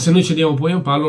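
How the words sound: It is said in an angry, irritated tone. "l'hanno detto con un po' di più incazzatura"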